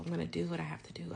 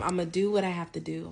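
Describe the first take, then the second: First: A fast, unvoiced whisper; whispered repeat. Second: Said in the usual way. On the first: Calming herself before the exam, whispered fast.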